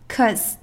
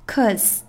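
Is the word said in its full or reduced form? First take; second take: reduced; reduced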